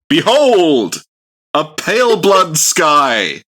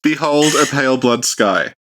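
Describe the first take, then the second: First: It is said as a loud exclamation. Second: It is said calmly, without exclamation.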